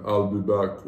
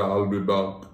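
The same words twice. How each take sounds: First: Low-pitched movie catchphrase impression; lightly voiced Arnold, pitched down. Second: Lower, broader Austrian-style catchphrase with open "back"; Arnold impression. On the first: Showing the co-host an Arnold impression, low-pitched. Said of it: "I can do his person". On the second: Refining the Arnold impression for the co-host, low with broad "back". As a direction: correct it to a low Arnold, opening the vowel of "back". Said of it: "He's more like the". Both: Shown as a demonstration.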